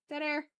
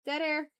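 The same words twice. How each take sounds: The two takes are said the same way.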